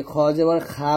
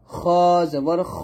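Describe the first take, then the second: First: খা with an open aa, light and plain; thin khaa. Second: খ held long with a rounded heavy o; thick kho. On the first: Teacher mimics a common mistake, thin khaa. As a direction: say খা as Bengali aa. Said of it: "এই প্রত্যেকটা উচ্চারণ কিন্তু ভুল". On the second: Teacher leads repeat-after-me, thick kho. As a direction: draw out খ, thick in the throat. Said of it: "সুন্দরভাবে উচ্চারণটা করতে হবে". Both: Shown as a demonstration.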